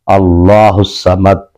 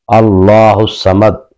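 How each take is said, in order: Both takes have the same delivery.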